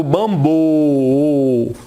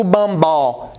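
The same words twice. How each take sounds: First: Bambolê low and slow, a long rounded "ô" then "lê"; syllable-stretched "bambôôô... lê"; closed O. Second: Bambó with an open "ó" at the end; wrong open O. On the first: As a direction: hold the closed O of bambolê, pause before the last syllable. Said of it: "eu digo bambolê". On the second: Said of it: "eu não digo bambó". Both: Shown as a demonstration.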